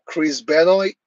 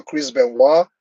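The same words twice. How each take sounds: First: Benoit said as spelt, ending in an "oyt" sound; anglicized pronunciation. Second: Benoit said "ben-WAH", silent t; French-style pronunciation. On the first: Streamer trying a wrestler's name, Benoit said as spelt. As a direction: sound out the end of Benoit English-style. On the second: Streamer correcting a wrestler's name, Benoit said "ben-WAH". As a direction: end Benoit on an open "wah". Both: Shown as a demonstration.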